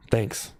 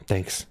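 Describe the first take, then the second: No difference in how they are said.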